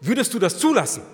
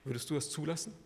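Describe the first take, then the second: First: Loud, high, demanding question; forceful challenge. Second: Quiet probing question. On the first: Preacher demands an answer from congregation, forceful challenge. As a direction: throw the question out at full force. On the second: Preacher asks the congregation what they would allow, quietly probing. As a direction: ask it softly, letting it sink in. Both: Real, not acted.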